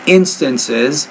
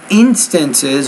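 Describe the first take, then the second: First: The first vowel is a short 'ih' sound. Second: The first vowel is a long 'ee' sound. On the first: The speaker calls it right. "but it, instances" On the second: The speaker calls it wrong. "not instances"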